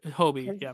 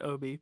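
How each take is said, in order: First: The name starts with an h sound. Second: The name starts without an h sound. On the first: "but Hobie" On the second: "he might pronounce it Obi because he's British"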